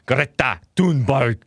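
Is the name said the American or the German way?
German. The name is said with a German pronunciation. "or I'll say it the German way"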